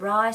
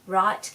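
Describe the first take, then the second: First: The final t sound is left off. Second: The final t sound is clearly pronounced.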